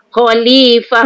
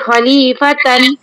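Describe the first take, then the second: First: The word ends with a breathy h sound. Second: The word ends with a t and -an. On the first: The speaker calls it right. "dibaca dengan ha besar" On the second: The speaker calls it wrong. "Jangan baca khalifatan"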